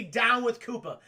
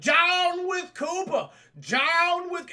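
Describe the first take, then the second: First: Said in the usual way. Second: Loud, high, stretched-out wooden chant; badly acted rallying cry, dragged out; stilted protest shout. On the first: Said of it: "you can't even say". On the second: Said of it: "it's just so stilted".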